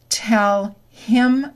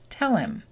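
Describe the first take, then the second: First: The h in him is fully pronounced. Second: The h is dropped and the words link.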